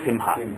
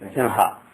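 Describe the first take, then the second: First: The nasal before the h is an m sound. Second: The nasal before the h is an ng sound. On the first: The speaker calls it wrong. "Otherwise you will just end up saying Simha" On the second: The speaker calls it right. "So the correct pronunciation is Simha"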